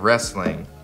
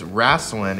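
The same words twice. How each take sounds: First: The word is said with a standard pronunciation. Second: The word is said with a Southern drawl.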